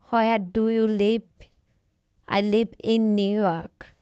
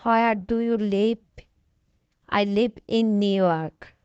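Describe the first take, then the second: No difference in how they are said.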